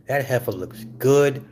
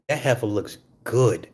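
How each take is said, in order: Both takes have the same delivery.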